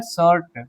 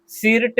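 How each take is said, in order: First: शॉर्ट as "shirt", with an "uh" vowel; शॉर्ट pronounced "shurt"; correct reading. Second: सिर्ट with an "i" vowel, "sirt"; mispronounced सिर्ट, like "seert"; wrong reading. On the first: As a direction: say शॉर्ट with i turned to "uh". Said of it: "इसको हम आ पढ़ते हैं". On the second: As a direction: say the i in सिर्ट as written. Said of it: "सिर्ट नहीं पढ़ेंगे". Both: Shown as a demonstration.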